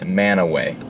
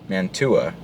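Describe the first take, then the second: First: The name is said without any t sound. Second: The name is said with a clear t sound. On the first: This is how the locals say the name. The speaker calls it right. "Utahns are super weird, and they pronounce that ... as Manaway" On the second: This is how an outsider would read the name. The speaker calls it wrong. "Normal person might say Mantua, right? Wrong"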